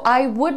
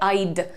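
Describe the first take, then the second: First: It is said as two full words. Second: It is said as one contracted syllable. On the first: "so आई वुड like टू is correct" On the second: "otherwise you can say आइड"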